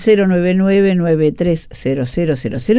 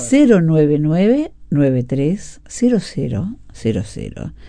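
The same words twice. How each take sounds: First: It is said at a quicker pace. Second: It is said at a slower pace.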